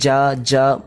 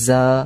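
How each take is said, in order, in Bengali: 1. ব্যঞ্জনটি জিভ চেপে বলা হয়। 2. ব্যঞ্জনটি সহজভাবে, জিভ শিথিল রেখে বলা হয়। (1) "জিভটাকে চেপে বলবো না" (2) "সিম্পলি যা এমনি করে বলবো"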